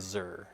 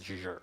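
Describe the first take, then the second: First: The syllable starts with a plain z sound. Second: The syllable starts with a zh sound. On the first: The speaker calls it wrong. "I'm not saying zer" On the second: The speaker calls it right. "it's zher"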